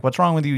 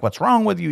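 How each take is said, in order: First: A lighter, slightly higher retake of the question; priest's puzzled question. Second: Much higher, incredulous mock question; priest's puzzled question. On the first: Retold or imitated. Eli asking praying Hannah again, lightly raised mock question. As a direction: repeat it as Eli, a bit less lifted. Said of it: "Eli's like". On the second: Priest Eli questioning weeping Hannah, much higher and incredulous. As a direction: toss it up high like a baffled priest. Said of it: "the priest comes up to her and is like".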